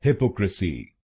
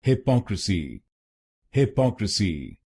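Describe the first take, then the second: First: हिपोक्रेसी with the stress on हि; wrong stress on हि; wrong first-syllable stress. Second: हिपोक्रेसी with the stress on पो; stress on second syllable. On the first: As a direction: demonstrate the mistake, hitting हि in हिपोक्रेसी. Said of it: "गलत pronunciation में हम पहले शब्दांश पर यानी एचवाई पर जोर डालते". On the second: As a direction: lean on पो in हिपोक्रेसी. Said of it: "दूसरे शब्दांश पर यानी पीओसी पर जोर डालना". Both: Shown as a demonstration.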